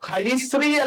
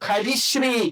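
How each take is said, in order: First: The second part begins with a plain 's' sound. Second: The second part begins with an 'sh' sound. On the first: The speaker calls it wrong. "ഹരിശ്രീ അല്ല" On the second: The speaker calls it right. "ഷ എന്നാണെങ്കിൽ അത് ശ്ര ആണ്"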